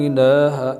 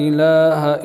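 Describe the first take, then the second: No difference in how they are said.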